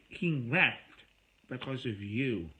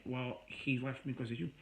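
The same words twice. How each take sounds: First: Louder, sharper echo with a jab on HE; turning it back. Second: Said in the usual way. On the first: Retold or imitated. Throwing her blame back at her, a louder sharp echo. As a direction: throw her words right back, harder. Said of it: "I said". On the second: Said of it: "So she's going on saying".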